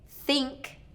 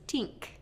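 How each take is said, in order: First: It starts with a th sound. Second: It starts with a t sound. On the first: The speaker calls it right. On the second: The speaker calls it wrong. "versus tink"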